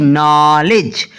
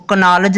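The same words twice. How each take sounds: First: "नॉलेज" slowly, starting on n; silent K. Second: "कनॉलेज" with a k before the n; wrongly sounded K. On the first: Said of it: "नॉलेज पढ़ते हैं". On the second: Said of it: "नहीं पढ़ते". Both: Shown as a demonstration.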